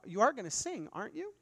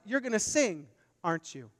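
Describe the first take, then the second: First: The voice rises at the end like a question. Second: The voice falls at the end like a demand. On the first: It asks whether something will happen. "that sounds like a question" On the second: It insists that something will happen. "But it isn't"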